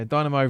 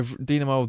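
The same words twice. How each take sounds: First: Dynamo said as DYE-nuh-mo; Dynamo, first syllable rhyming with "die"; pronunciation variant. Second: Dynamo said as DEE-nuh-mo; Dynamo, first syllable like "dee"; pronunciation variant. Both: Shown as a demonstration. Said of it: "however you want to, like, pronounce them".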